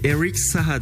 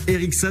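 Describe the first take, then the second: First: The name is said with its original pronunciation. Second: The name is said with a French pronunciation. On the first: "puisque c'est [name]" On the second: "c'est la version française entre guillemets de le dire"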